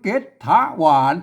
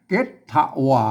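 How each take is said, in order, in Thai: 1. พยางค์ที่สองมีเสียงจัตวา 2. พยางค์ที่สองมีเสียงเอก (1) "ทะมันออกเสียงจัตวานะครับ" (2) "ทะนี่มันออกเสียงเอกนะครับ"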